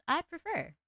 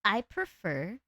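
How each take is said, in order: First: High-pitched little gremlin cringe voice. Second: Said in the usual way. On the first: Shown as a demonstration. Streamer showing her preferred voice, high gremlin cringe. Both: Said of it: "cringe voice".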